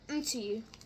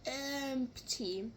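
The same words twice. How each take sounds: First: The word begins directly with an M sound. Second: The word begins with an E vowel sound. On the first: The speaker calls it right. "It's meant to be like empty" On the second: The speaker calls it wrong. "you guys are saying like the E. Like empty"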